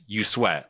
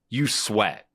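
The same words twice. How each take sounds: First: It is said plainly, without attitude. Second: It is said with sassy attitude.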